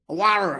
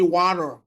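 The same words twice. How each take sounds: First: The word is said in a West African accent. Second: The word is said in an American accent. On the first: The seller in Africa can understand it. "You're not talking to an American, you're talking to an African" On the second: The seller in Africa cannot understand it. "so you speak in American accent"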